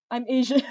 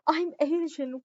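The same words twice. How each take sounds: First: Said in the usual way. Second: Higher and slower, through a laugh. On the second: Real, not acted. Tutor laughing as she repeats her answer to chat, amused.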